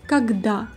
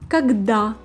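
The two takes are said the same way.

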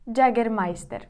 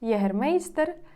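First: It is pronounced with Spanish-style sounds. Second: It is pronounced with Ukrainian-style sounds. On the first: This is how Spaniards name the brand. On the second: This is how Ukrainians name the brand.

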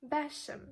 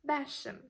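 The two takes are said the same way.

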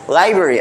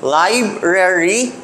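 First: One of the two r sounds is dropped. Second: Both r sounds are pronounced in full. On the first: "You make it into library na lang" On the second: "From library, duha gyapon ka er"

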